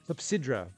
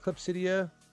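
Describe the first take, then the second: First: The word ends with a 'sydra' sound. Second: The word ends with a 'sidia' sound. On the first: The speaker calls it right. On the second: The speaker calls it wrong.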